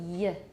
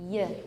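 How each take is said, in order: Both takes have the same delivery.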